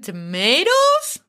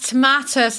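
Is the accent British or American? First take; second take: American; British. First: It is said in an American Connecticut accent. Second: It is said in a British accent.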